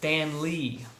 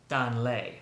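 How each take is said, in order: First: The name is said with an Americanized pronunciation. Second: The name is said closer to its native pronunciation. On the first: The speaker calls it wrong. "I Americanized the heck out of that name" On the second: The speaker calls it right. "it is more like Dan Lei"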